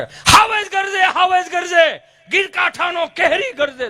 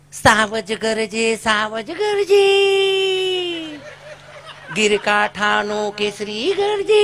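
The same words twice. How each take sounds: First: Much higher, louder, slow declaiming roar; booming schoolmaster recital. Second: Very slow, drawn-out prissy recitation; prim teacher recital. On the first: Old schoolmaster roaring the poem at his class, loud and high. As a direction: belt it out like an old village teacher. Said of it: "ઈ જે આમ ઉપાડ કરે". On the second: English-medium teacher reciting the lion poem to pupils, slow and prim. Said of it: "ઈ બેને જે ઉપાડ કર્યો". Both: Retold or imitated.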